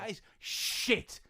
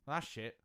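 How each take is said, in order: First: It is said with venom in the voice. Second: It is said plainly, without venom.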